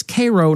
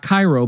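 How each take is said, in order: First: Cairo said as "KAY-roh"; long "ay" at the front of Cairo; Nebraska's Cairo. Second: Cairo said as "KY-roh"; "eye" sound in the front of Cairo; Egyptian Cairo. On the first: Host citing Nebraska usage, Cairo as "KAY-roh". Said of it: "in Nebraska, it's Cairo". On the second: Host ruling it out for Nebraska, Cairo as "KY-roh". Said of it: "not Cairo". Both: Shown as a demonstration.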